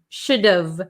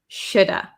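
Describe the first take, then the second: First: The H drops, leaving one word ending in V. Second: The H and V drop, ending in an uh vowel. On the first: "we get rid of this H" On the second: "The V kind of becomes silent and we are left with shoulda"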